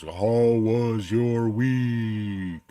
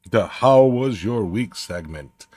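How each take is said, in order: First: Very slow, drawn-out echoing announcer read; echoey show-host voice. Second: Said in the usual way. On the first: Shown as a demonstration. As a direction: stretch every word like an old kids' TV show title. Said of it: "the big old echoey deep voice". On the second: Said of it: "I need, like, the, the big old echoey deep voice".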